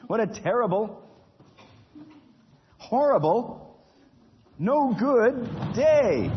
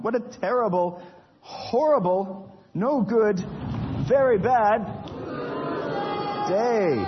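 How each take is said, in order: First: High, drawn-out lament of a miserable man; a hammed-up cry over a terrible day; despairing wail. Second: A hammed-up howl of misery; despairing lament. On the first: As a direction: wail it slowly, higher and higher. Nigel's lament after ticket. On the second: Repeated lament, louder.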